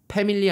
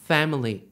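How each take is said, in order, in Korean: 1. 한국식으로, p 소리로 시작해요. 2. 영어식으로, f 소리로 시작해요. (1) "패밀리 아니고" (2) "F 발음만 좀 살려 주세요"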